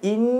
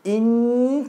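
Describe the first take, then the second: First: The nasal hum is blocked and cannot sound. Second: The nasal hum sounds freely through the nose.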